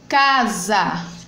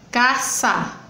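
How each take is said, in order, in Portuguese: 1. A consoante do meio é um som de z sonoro. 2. A consoante do meio é um som de s sibilante. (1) "está entre vogais" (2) "botando o som do S"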